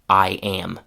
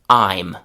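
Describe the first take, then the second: First: Two full syllables with a gliding vowel. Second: One syllable with a gliding vowel. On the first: "the classic pronunciation" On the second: "the contraction"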